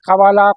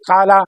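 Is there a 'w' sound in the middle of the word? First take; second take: yes; no. First: The word has a w sound between two vowels. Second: The word has a long vowel and no w sound. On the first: This form is hard to pronounce. The speaker calls it wrong. "कवालू पढ़ना मुश्किल था" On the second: This form is easy to pronounce. The speaker calls it right. "कल आराम से पढ़ लिया"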